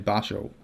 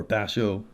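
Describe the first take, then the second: First: "Basho" said one of two ways; first pronunciation. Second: "Basho" said the other way; alternative pronunciation. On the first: Offering viewers a name for the roadmap stage, first pronunciation. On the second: Correcting himself on the roadmap stage name, alternative pronunciation. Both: Shown as a demonstration. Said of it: "however you want to pronounce it".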